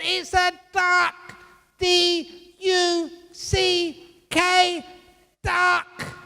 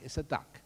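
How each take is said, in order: First: Very high, loud, drawn-out mock shouting; over-the-top exasperated husband; hammed-up yell. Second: Said in the usual way. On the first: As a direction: bellow it slowly at a high pitch, letter by letter. Husband yelling at quarrel's climax.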